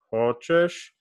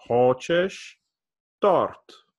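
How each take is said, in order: First: Said in the usual way. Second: Торт lifted at the end of Хочешь торт; rising question. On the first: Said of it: "raised a little bit". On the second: Shown as a demonstration. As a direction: raise the voice on торт. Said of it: "I kinda raise my voice at the end".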